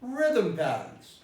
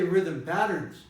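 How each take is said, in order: First: The stress falls on the word rhythm. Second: The stress falls on the word patterns. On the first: Patterns is a noun. The speaker calls it right. "I don't stress patterns, I stress rhythm" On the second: Patterns is a verb. The speaker calls it wrong. "patterns becomes a verb"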